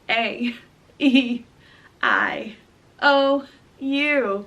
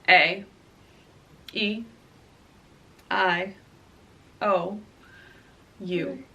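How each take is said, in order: First: The vowels are said with a smiling, lively delivery. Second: The vowels are said with a serious, straight delivery. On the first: "if you're doing like a smiling or a talking" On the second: "in a serious way"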